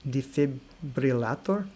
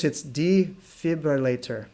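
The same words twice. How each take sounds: First: Slow Defibrillator in a Russian accent, rolled R; Russian pronunciation. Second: Slow English defibrillator, stress on ay; English pronunciation. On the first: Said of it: "In Russian, I'm gonna try defibrillator". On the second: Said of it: "So in English". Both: Shown as a demonstration.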